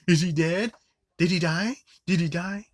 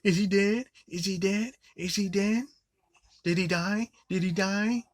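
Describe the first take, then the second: First: High, loud mocking squeal; mock panicked yelling again. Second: High, shrill-pitched mock panic; mock panicked yelling. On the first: Reviewer repeats the girl's line, loud mock yell. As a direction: shriek it like an idiot. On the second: Reviewer mocking the girl's panicked line, high mock yell. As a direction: squeal it like a ditzy teen.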